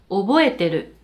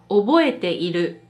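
First: The i sound after te is left out. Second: The i sound after te is pronounced. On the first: This is the form most people use when speaking. "この意はよく省略されるので、話すときはほとんどの人が覚えてる" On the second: This is the full form. "1 つ目は覚えている。"

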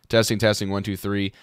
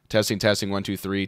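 First: The voice has a less bright equalizer setting. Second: The voice has a bright equalizer setting. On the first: "this legacy option"

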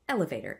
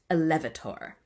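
First: The stress falls on the first syllable. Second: The stress falls on a later syllable. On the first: The speaker calls it right. "a word like elevator is always trochaic" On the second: The speaker calls it wrong. "it's not elevator"

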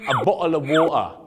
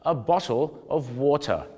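First: The t sounds are dropped in a Cockney accent. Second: The t sounds are clear and the vowels full. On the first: "จะไม่ออกเสียงตัวทีหรือเขาจะเรียกว่า, Cockney, English" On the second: "เสียงทอทหารชัดมากสระโอเนี่ยเต็มๆแล้วนะฮะ"

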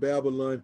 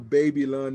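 First: The first part sounds like the word babble. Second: The first part sounds like the word baby. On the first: This is the usual way the word is said. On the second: The word was misread as a young reader.

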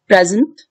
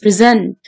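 First: The stress falls on the first syllable. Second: The stress falls on the second syllable. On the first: It is a describing word. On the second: It is a verb. "this part is stressed, verb"

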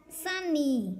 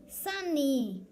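No difference in how they are said.

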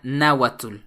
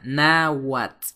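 First: The final sound is a full 'tl'. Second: The final sound is like 'ts'. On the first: The speaker calls it wrong. "no se pronuncia" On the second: The speaker calls it right. "se pronuncia como ts"

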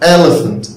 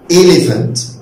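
First: The first vowel is said with the mouth open. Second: The first vowel is said with lips nearly closed. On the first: The speaker calls it right. "an elephant elephant elephant" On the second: The speaker calls it wrong. "يعني ما اقولش elephant"

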